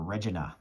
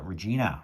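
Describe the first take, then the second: First: The name is said the Canadian way. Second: The name is said in a non-Canadian way.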